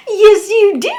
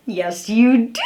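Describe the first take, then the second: First: Mock sobbing protest. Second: Said in the usual way. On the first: Mocking Amber's denial on the stand, high fake wailing cry. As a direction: ham up a tearful denial, pitch way up.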